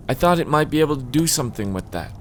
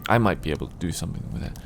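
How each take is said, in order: First: Higher, lightly voiced novelist; wistful former romance writer. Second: Said in the usual way. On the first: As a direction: lift it into the writer's storytelling voice. Character take, then reread.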